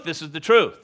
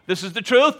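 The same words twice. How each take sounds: First: Truth said falling and settled; preacher answering himself with a fall; firm confirmation. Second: Truth lifted high and louder; rising This is the truth; preacher stressing truth with a rise; emphatic declaration. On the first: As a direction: drop the line to a firm close. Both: Shown as a demonstration. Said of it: "pay attention, this is a true".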